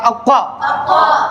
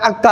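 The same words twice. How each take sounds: First: अक्का with a heavy q from the back of the throat and rounded "aw"; thick deep-throat q. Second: अक्का with a light k and open "aa"; thin light k. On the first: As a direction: fill the mouth on अक्का. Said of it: "इसको पुर करके पढ़ना है". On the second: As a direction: say अक्का finely, without rounding. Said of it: "आराम से पढ़ना है". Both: Shown as a demonstration.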